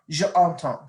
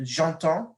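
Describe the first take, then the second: First: The e of je is kept separate. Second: The e of je is dropped and joined. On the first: The speaker calls it wrong. "See how that doesn't flow?" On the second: The speaker calls it right. "you put the apostrophe"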